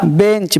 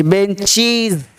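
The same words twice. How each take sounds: First: "बेंच" short, ending in ch; singular CH ending. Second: Very slow "बेंचीज" with long ee; plural IZ ending. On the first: Teacher showing class the singular, "बेंच" with ch. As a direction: say "बेंच" with a crisp final ch. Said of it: "sound हो रहा है चा". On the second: Teacher showing class the plural, slow "बेंचीज" with z. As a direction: say "बेंचीज", drawing out -cheez. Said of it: "बेंच का बेंचीज". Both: Shown as a demonstration.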